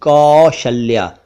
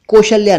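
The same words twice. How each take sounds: First: "कौशल्या" slowly, long open au; correct au vowel. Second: "कौशल्या" mispronounced "koshalya", higher, closed o; wrong o vowel. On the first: Teacher corrects to कौशल्या, slow au sound. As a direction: say "कौशल्या" as "kaww-shalya". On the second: Teacher rejects wrong कौशल्या, o sound. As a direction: start "कौशल्या" with "koh". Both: Shown as a demonstration. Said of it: "कौशल्या नहीं".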